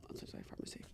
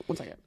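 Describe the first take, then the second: First: Whispered aside, voice gone; real whisper. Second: Said in the usual way. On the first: Real, not acted. Pausing the podcast to whisper to a pharmacy worker. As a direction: whisper it off-mic, unvoiced.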